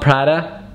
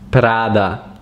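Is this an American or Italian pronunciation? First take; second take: American; Italian. First: The name is said with an American English pronunciation. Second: The name is said with an Italian pronunciation. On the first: The speaker calls it wrong. "It's not Prada" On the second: The speaker calls it right. "it's Prada"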